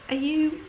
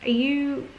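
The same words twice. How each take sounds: The two takes are said the same way.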